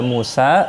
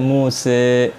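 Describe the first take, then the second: First: The final vowel is an open 'a'. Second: The final vowel is tilted toward 'e'. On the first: "Musa bisa dibaca Musa" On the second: "bisa dibaca Muse"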